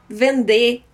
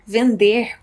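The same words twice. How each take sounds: First: The final r sound is dropped. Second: The final r sound is pronounced.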